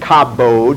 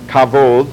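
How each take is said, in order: First: The middle consonant is a hard B sound. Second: The middle consonant is a soft V-like sound. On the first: The speaker calls it wrong. "you really don't say kabod" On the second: The speaker calls it right. "It's a BV sound"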